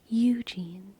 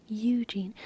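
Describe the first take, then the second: The two takes are said the same way.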